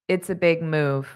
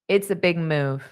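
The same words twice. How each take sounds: Both takes have the same delivery.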